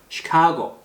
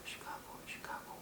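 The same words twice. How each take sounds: First: Said in the usual way. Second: Timid whispered "시카고", almost no sound; barely audible practice. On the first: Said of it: "소리를 자꾸 내서 연습하세요". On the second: Shown as a demonstration. Teacher shows useless silent practice, barely audible whisper. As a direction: mumble it to yourself under your breath, whispering. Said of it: "이렇게 하는 건 별로 의미가 없어요".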